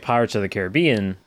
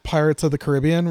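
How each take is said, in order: First: Caribbean said care-uh-BEE-un; stress on BE. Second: Caribbean said kuh-RIB-ee-un; stress on RIB. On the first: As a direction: stress the BE of Caribbean, as in the film title. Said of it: "that's how you get it". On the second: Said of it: "you never hear anyone ever call it". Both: Shown as a demonstration.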